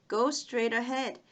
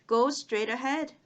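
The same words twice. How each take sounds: Both takes have the same delivery.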